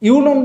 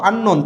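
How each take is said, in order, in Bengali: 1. শব্দটি 'yu' ধ্বনি দিয়ে শুরু হয়। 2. শব্দটি 'un' ধ্বনি দিয়ে শুরু হয়। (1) "ইউনোন বলিনি তো"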